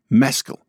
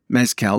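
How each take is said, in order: First: The stress is on the first syllable. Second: The stress is on the last syllable. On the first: It names the actor. The speaker calls it right. "With a soft ending" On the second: It names the tequila drink. The speaker calls it wrong. "like the tequila drink where the emphasis is on the last syllable"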